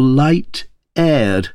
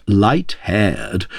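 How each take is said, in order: First: "light-aired" starting "aired" on the bare vowel; no h sound. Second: "light-haired" with a clearly breathed h on "haired"; aspirated h. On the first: Narrator weighs what the Queen meant, h-less "light-aired". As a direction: set "light-aired" apart, without any h. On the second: Narrator weighs what the Queen meant, aspirating "light-haired". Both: A narrator's reading. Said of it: "why might she not aspirate her vowels".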